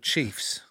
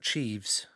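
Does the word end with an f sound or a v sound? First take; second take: f sound; v sound. First: The word ends with an f sound. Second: The word ends with a v sound.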